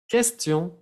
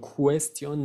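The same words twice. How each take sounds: First: No w sound follows the k sound. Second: A w sound follows the k sound. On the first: The speaker calls it right. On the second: The speaker calls it wrong.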